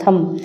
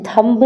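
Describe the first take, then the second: First: थम with no b at the end; थम, ending cleanly on m; silent b. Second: थंब with the b sounded, the wrong way; थंब spoken as the wrong form with the b; wrong pronunciation. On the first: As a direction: say थम, the b of thumb kept silent. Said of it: "इसको थम पढ़ना". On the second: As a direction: say थंब ending on a clear b. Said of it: "थंब नहीं पढ़ना है". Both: Shown as a demonstration.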